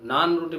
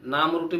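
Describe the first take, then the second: First: The first word ends with an n sound. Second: The first word ends with an m sound. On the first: The speaker calls it right. "ওটা নান রুটি বলে" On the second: The speaker calls it wrong. "নাম রুটি বলে না"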